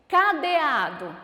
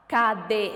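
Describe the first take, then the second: First: Said in the usual way. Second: "Cadeado" broken up, with a long "a" before "do"; stressed syllable stretched. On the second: Shown as a demonstration. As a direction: say "Cadeado" syllable by syllable, holding the "a" of "ado". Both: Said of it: "que é a sílaba tônica da palavra".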